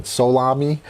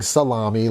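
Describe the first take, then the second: First: "Solami" as so-LAH-mee, full O first; careful pronunciation. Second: "salami" as suh-LAH-mee, weak first vowel; meat pronunciation. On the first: Host getting a viewer's surname right, "Solami" as so-LAH-mee. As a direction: say "Solami" with a clear "so" at the front. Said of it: "Just making sure I pronounce it properly". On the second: Host showing the unwanted reading, "salami" as suh-LAH-mee. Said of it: "I don't wanna say, like, salami". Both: Shown as a demonstration.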